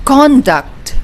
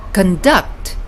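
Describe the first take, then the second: First: CON-duct, full strong first vowel; stress on first syllable. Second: Con-DUCT, the verb; stress on second syllable. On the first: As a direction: punch the "CON" of "conduct", light "duct". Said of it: "with the stress in the first syllable". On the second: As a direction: reduce "con" and land on "DUCT" in "conduct". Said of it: "which means direct". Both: Shown as a demonstration.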